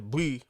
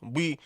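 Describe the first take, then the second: Both takes have the same delivery.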